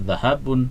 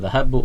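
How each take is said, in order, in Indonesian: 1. Kata ini berakhir dengan vokal pendek u ditambah n. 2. Kata ini berakhir dengan vokal pendek u. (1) "bukan zahabun" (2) "bukan zahabu"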